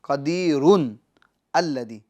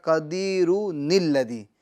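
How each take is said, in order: First: Two separate words, ending 'run' then 'alladhi'. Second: One joined phrase, 'run' becomes 'nil' linking on.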